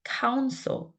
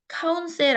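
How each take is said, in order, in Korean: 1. 두 번째 음절의 모음은 거의 사라져요. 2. 두 번째 음절은 모음이 또렷해요. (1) "거의 모음이 없다시피 한 발음이에요" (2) "counsel 아니고"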